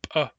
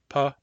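First: The p is released with a forceful, popping burst. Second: The p is released with a normal, gentle burst.

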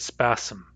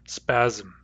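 First: A hissing S sound comes before the M. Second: A buzzing Z sound comes before the M. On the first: The speaker calls it wrong. "It would be the wrong word to say spasm" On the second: The speaker calls it right. "We all hear a Z before the M"

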